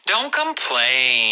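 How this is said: It is said in a gentle tone.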